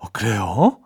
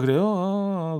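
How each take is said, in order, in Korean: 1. 목소리가 생기 있고 관심 있어 보여요. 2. 목소리가 밋밋하고 관심 없어 보여요. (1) "조금 영혼을 넣어서" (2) "영혼 없이 그냥 이 상황 그냥 때우기 위해서"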